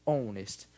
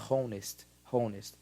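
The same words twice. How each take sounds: First: "honest" starting on the o, no h; silent h. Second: "honest" said with a pronounced h; wrong h sound. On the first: Teacher demos the correct silent-h honest. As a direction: begin "honest" straight on the vowel. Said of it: "A gente fala". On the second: Teacher demos the wrong aspirated honest. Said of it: "A gente não fala". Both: Shown as a demonstration.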